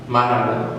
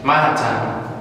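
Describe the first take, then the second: First: The middle t is softened into a d. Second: The middle t is pronounced heavy and strong. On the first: "American English, they will turn the T to D" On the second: "British English keep the T and make it really heavy"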